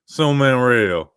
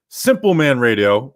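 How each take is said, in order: First: The P sound in the first word is dropped. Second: The P sound in the first word is pronounced.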